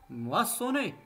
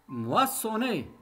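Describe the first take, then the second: The two takes are said the same way.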